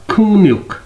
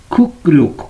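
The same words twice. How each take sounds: First: "खुंगन्युक" with ng-n in place of k-r; nasal assimilation. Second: Said in the usual way. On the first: Shown as a demonstration. ("खुंगन्युक" में क-र बदलकर ङ-न) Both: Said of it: "pronounce होगा".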